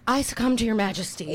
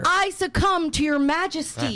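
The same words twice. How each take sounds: First: It is said at normal loudness. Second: It is said louder.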